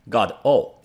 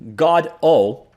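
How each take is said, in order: First: The stress is on the second syllable. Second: The stress is on the first syllable.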